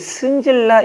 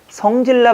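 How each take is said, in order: First: The first vowel is the closer 'eu' sound. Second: The first vowel is the open 'eo' sound. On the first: "승질나 이렇게 발음을 하고요" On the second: "성질나 발음을 안 하고"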